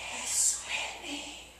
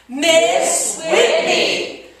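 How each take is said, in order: First: It is said in a whisper. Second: It is said very loudly.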